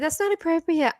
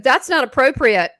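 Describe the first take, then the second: First: It sounds plain and neutral, not scolding. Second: It sounds like a mother scolding a child.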